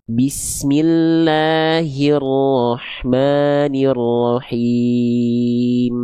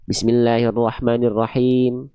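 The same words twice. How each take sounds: First: Drawn out, every letter given its weight; slow careful recitation. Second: Bismillahirrahmanirrahim gabbled through quickly; rushed recitation. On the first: Teacher showing careful Quran recitation, slow and deliberate. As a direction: recite Bismillahirrahmanirrahim slowly and precisely. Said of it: "tapi diperhatikan bacanya". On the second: Teacher mimicking a hasty careless reciter, rushed. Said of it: "Beda sama yang baca". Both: Shown as a demonstration.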